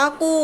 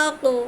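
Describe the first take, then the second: First: আকো said with rounded lips, the ক turned into a round vowel; wrong rounded আকো. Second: আকো with an unrounded mouth and a knocked ক; correct আকো. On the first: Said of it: "এভাবে বলে না". (ভুল উচ্চারণ, মুখ গোল করে আকো) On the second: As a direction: keep the lips flat and bounce the ক in আকো. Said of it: "মুখ গোল করবে না". (মুখ গোল না করে সঠিক আকো) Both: Shown as a demonstration.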